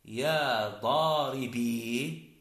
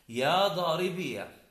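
First: "ضاربي" drawn out to a long final ee; stretched "ضاربي" with no vowel after the ya; silent final ya. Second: "ضاربية" said daaribiya, ending in short a; careful "ضاربية" with the ya voweled a; ya with fatha. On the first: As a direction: slowly sound "ضاربي" as daa-ri-BEE. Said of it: "وإثباتها مع السكون". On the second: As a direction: slowly open "ضاربية" into a final -ya. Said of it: "إثبات الياء مع الفتح". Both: Shown as a demonstration.

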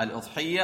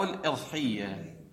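First: الأضحية with an opening "u", "udhiyya"; الأضحية said "al-udhiyya", damma on the hamza; u vowel. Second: الإضحية with an opening "i", "idhiyya"; الإضحية said "al-idhiyya", kasra on the hamza; i vowel. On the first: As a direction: begin الأضحية on a short "u". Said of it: "الهمزة مكسورة، الإضحية أو مضمومة الأضحية". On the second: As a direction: begin الإضحية on a short "i". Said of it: "الهمزة مكسورة". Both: Shown as a demonstration.

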